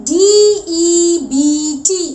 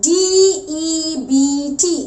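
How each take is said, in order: The two takes are said the same way.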